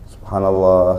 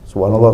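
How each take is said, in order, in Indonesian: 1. Frasa ini diucapkan pelan dan penuh penghayatan. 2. Frasa ini diucapkan cepat, seperti diucapkan begitu saja. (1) "Agak-agak resapi sedikit gitu loh" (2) "tapi jangan cuman gini loh"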